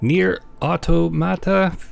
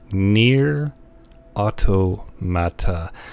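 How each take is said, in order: First: The name is said at a normal pace. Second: The name is said very slowly.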